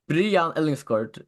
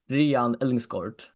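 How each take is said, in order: First: The name is pronounced the Faroese way. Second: The name is pronounced the Danish way. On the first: "is how I pronounce it in Faroese" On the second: "Adam pronounces it in Danish"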